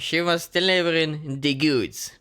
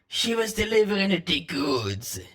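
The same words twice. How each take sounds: First: It is said in the speaker's normal accent. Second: It is said in a put-on Californian accent.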